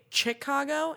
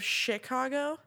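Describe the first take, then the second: First: The word begins with a ch sound. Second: The word begins with a sh sound. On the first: The speaker calls it wrong. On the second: The speaker calls it right.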